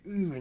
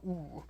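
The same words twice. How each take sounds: First: OOH with unrounded Japanese U; Japanese U sound. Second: OOH as a rounded English vowel; soft rounded "ooh", the counterexample; English OO sound. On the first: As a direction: model the "ooh" as a Japanese vowel. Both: Shown as a demonstration.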